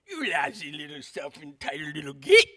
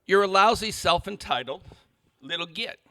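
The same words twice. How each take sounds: First: Hammed-up, sneering British accent; mock British accent. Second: Said in the usual way. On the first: Shown as a demonstration. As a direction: put on an exaggerated British accent, ending on a punchy "git". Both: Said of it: "it's much worse because of his accent".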